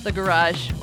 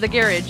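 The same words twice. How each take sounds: First: Garage is said in the speaker's usual accent. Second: Garage is said the way British speakers say it.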